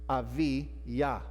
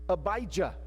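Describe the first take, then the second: First: The second consonant is a V sound. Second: The second consonant is a B sound. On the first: This is the original Hebrew form. "but it's not that way in Hebrew" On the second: This is the English form. "Abijah in English"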